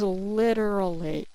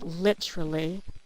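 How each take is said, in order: First: The word is said in an American accent. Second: The word is said in a British accent. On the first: This is how the word is spelled. The speaker calls it right. "the word is literally" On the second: This is how people in the UK say it. The speaker calls it wrong. "people in the U K ... they say literally"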